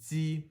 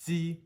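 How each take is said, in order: First: It starts with a tight, hissing dz-like sound. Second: The same.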